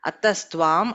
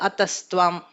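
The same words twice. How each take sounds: Both takes have the same delivery.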